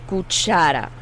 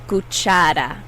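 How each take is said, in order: The two takes are said the same way.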